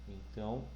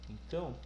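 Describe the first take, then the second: Both takes have the same delivery.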